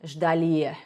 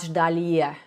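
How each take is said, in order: No difference in how they are said.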